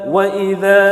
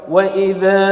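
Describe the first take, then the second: Both takes have the same delivery.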